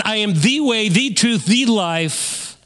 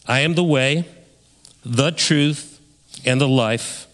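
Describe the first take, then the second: First: Rising, insistent "I am the way, the truth, the life"; emphatic repeat. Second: Each phrase "the way", "the truth", "the life" set apart by pauses, a little lower; unhurried, weighty reading of "I am the way". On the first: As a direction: drive each word home to the congregation. Repeats Jesus' words with emphasis. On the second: Quoting Jesus, then repeating it. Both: Shown as a demonstration.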